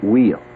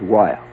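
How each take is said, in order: First: The name is said like the word 'wheel'. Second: The name is not said like 'wheel'.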